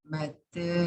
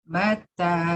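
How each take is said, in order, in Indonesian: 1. Vokal akhirnya condong sedikit ke 'e'. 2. Vokal akhirnya adalah 'a' terbuka biasa. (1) "bil taklil" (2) "bil fathiyah"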